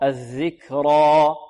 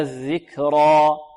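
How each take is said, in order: No difference in how they are said.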